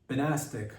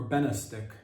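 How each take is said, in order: First: "Benastic" stressed on NAS; stress on second syllable. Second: "Benastic" stressed on BEN; stress on first syllable. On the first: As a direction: say "Benastic" as buh-NAS-tic. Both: Shown as a demonstration. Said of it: "I don't know if it's Benastic or Benastic".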